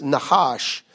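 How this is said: The name is said in a Hebrew way. "In Hebrew, it's Nahash"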